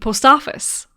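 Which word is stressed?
office. The stress falls on the word office. This is how many Irish people say it. "a lot of Irish people say the post office"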